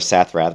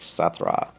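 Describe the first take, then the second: First: The name ends with an extra th sound. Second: The name ends without any th sound. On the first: The speaker calls it wrong. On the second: The speaker calls it right.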